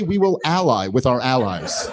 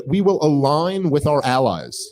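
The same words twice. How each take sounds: First: Slow, chuckling rewording of her line; lightly laughing parody; mock paraphrase, laughing. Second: Mock vice president. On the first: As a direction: say it slowly, laughing at how empty it is. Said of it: "You might as well say". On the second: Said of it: "She just said".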